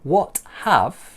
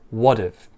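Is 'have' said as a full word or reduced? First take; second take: full; reduced. First: The word 'have' is said in full. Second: The word 'have' is reduced to a short 've'. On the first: "So what have becomes what've" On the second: "So what have becomes what've"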